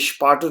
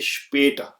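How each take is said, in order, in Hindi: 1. पहला स्वर खुला 'ah' वाला है। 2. पहला स्वर थोड़ा सपाट 'eh' वाला है। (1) "ये स्पाटर नहीं पढ़ा जाएगा" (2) "बल्कि स्पेटर"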